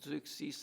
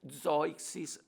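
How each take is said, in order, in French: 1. Le nom se prononce à la française. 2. Le nom se prononce à l'allemande. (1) "en français" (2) "en allemand"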